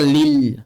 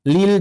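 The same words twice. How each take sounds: First: "lil" with a pressed, thick l; wrong lil. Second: "Lil" with thin, light l's; correct lil. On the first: Teacher warning against over-pressing, thick pressed "lil". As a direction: press hard and heavy on the l of "lil". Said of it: "Jangan terlalu tekan". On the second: Teacher modelling for students, thin light "Lil". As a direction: say "Lil" lightly, without pressing the l. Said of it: "jangan dibaca lil". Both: Shown as a demonstration.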